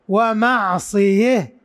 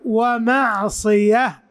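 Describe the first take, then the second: First: The word ends in an h sound after 'e'. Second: The word ends in an h sound after 'a'. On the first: "يقف بالإمالة" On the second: "إذا وقفوا ومعصية بالهاء"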